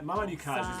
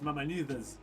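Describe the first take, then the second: First: The C is said as a k sound. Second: The C is said as a th sound. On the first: The speaker calls it wrong. "Mamanucas is what most people do" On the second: The speaker calls it right. "so it's Mamanuthas"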